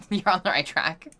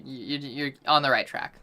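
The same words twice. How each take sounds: First: Saying You're on the right track through a laugh; amused, laughing repeat. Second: Said in the usual way. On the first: Real, not acted. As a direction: let the laugh spill into the words. Repeats the line, second time laughing.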